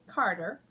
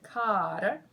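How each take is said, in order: First: The name is said in a general accent. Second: The name is said in a Southern drawl.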